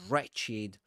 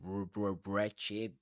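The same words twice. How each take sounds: First: The word begins with an R, no W. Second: The word begins with a sounded W. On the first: The speaker calls it right. "You say R only" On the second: The speaker calls it wrong. "You don't say wretched. You don't pronounce the w at the beginning of a word"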